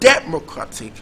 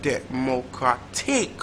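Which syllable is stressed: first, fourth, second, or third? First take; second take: first; fourth. First: The stress is on the first syllable. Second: The stress is on the fourth syllable.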